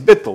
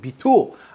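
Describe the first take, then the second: First: It is said with an Ashkenazic accent. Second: It is said with a non-Ashkenazic accent.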